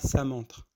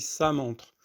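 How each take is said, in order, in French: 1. Le 's' est léger et fin. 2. Le 's' est lourd et emphatique. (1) "on dit pas ça montre" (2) "on dit ça montre"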